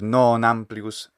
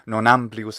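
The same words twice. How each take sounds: First: The vowel in non is long. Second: The vowel in non is short. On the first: The speaker calls it right. "the non and the am should be about the same weight or length" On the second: The speaker calls it wrong. "the vowel sounds short"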